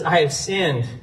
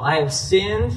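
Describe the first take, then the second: First: Said in the usual way. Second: SINNED lifted at the end; lightly acted confession, SINNED left hanging upward; rising confession. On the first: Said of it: "Saul says". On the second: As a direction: say "I have sinned" with SINNED rising, unfinished. Re-voicing verse to expose motive.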